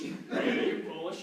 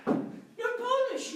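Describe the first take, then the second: First: Low, slow pronouncement; repeated diagnosis. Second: High, drawn-out pronouncement; startling diagnosis. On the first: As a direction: drop the voice and draw out the diagnosis. Diagnosis said over, much lower. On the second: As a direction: deliver the diagnosis slowly up high. Doctor gives the x-ray result. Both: Acted.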